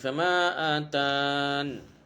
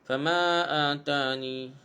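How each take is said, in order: First: It ends abruptly on a stopped n sound. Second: It ends with a lengthened vowel after the n. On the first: "diwaqafkan dengan sukun nun, jadi nun tu matilah" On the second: "jadi mak asli jadi panjang lah"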